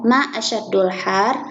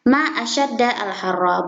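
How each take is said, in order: First: The word asyadd ends with a 'u' vowel. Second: The word asyadd ends with an 'a' vowel. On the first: It asks which part of the day is hottest. The speaker calls it wrong. "asyaddu, yaitu berharokat dhamma" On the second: It exclaims how hot the day is. The speaker calls it right. "asyadda berharokat fathah"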